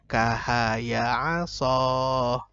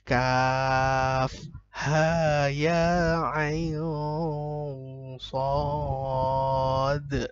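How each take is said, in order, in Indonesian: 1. Huruf-huruf digabung menjadi suku kata pendek yang tersambung. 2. Setiap huruf diucapkan dengan nama lengkapnya. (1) "bisa saja dia nanti akan membaca kahaya aso" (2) "Padahal harusnya kaf ha ya ain sad"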